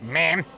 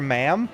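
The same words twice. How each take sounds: First: The word is pronounced in a strange, unusual way. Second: The word is pronounced in an ordinary way.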